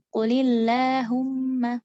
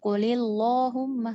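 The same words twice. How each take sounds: First: The long a vowel sounds thin and light. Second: The long a vowel sounds thick and heavy. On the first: The speaker calls it right. "huruf alif ini akan menipis kalau misalnya didahului oleh huruf yang tipis" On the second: The speaker calls it wrong.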